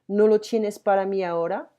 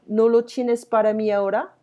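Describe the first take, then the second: No difference in how they are said.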